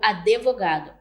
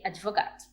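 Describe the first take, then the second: First: An extra vowel is inserted between consonants. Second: No extra vowel is inserted between consonants. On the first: "emissão de uma vogal entre consoantes" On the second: "ao invés de advogado"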